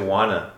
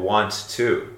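First: The words merge into the reduced form wanna. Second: Both words are pronounced fully and separately.

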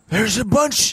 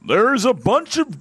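First: The voice is rough and husky. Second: The voice is plain, not rough or husky. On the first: The speaker calls it right. "Is that husky?" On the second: The speaker calls it wrong. "that's not husky either"

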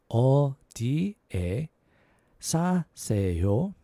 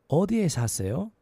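First: It is said at a slower pace. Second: It is said at a faster pace.

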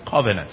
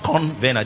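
First: No n sound comes before the v. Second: An extra n sound comes before the v. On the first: The speaker calls it right. "So it's covenant" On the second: The speaker calls it wrong. "They say convenant. It's not convenant. There's no N in that"

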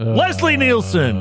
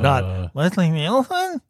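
First: It is said forcefully, falling like a statement. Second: It is said as a question, rising.

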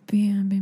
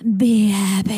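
First: It is said at a normal speed. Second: It is said slowly.

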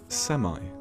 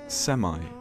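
First: It is said with an American pronunciation. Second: It is said with an American pronunciation.

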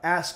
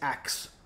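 First: The word ends with an s then k sound. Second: The word ends with a k then s sound. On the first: "instead of saying" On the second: "I'm going to say axe"

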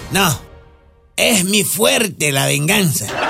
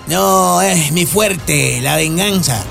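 First: The sentence is said with an internal pause. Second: The sentence is said without an internal pause. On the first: "Con coma" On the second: "sin coma"

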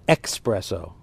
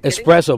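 First: The word begins with an 'ex' sound. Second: The word begins with an 'es' sound. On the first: The speaker calls it wrong. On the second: The speaker calls it right.

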